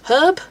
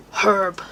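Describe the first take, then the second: First: Herb with no H, high and loud in disbelief; mock the dropped H in herb; herb? said much higher and louder; outraged American herb. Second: Herb with a firm H, falling; Herb said flat and final; British herb. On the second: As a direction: correct it: Herb, H sounded. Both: Shown as a demonstration.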